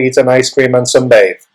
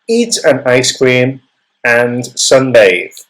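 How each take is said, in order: First: There is no pause before "and". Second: There is a pause before "and". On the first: The speaker calls it wrong. "Doesn't sound right" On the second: The speaker calls it right. "I would say"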